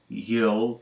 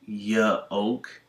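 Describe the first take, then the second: First: The Y glides straight into the vowel. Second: The Y is said as a separate syllable. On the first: The speaker calls it right. "It's really just a y with no in it" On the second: The speaker calls it wrong. "I don't say ya because this isn't y-oak"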